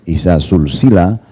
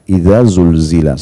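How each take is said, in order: First: The consonants are voiceless, hissing s sounds. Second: The consonants are voiced, buzzing z-type sounds. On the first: It means being linked together. The speaker calls it wrong. "kita bacanya pakai sin" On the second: It means the earth is shaken. The speaker calls it right. "zainya itu lidahnya bergetar"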